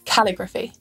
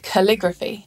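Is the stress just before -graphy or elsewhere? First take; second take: elsewhere; before -graphy. First: The stress falls away from the syllable before -graphy. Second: The stress falls on the syllable before -graphy. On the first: The speaker calls it wrong. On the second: The speaker calls it right. "the syllable before it is stressed"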